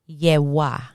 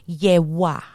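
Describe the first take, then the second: Both takes have the same delivery.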